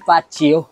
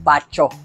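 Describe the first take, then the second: First: The middle consonant is a z sound. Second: The middle consonant is a ch sound. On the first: "at lalong-lalong hindi Fazio" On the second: "hindi nababasa bilang Pacho"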